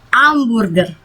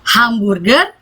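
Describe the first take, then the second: First: Hamburger said amburger; silent h. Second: Hamburger said with a clear H; h sounded. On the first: Teacher giving hamburger the French silent h. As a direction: drop the h in hamburger. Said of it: "H di depan kata itu tidak dibaca". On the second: Teacher contrasting hamburger with and without h. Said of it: "Misalnya mau bilang". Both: Shown as a demonstration.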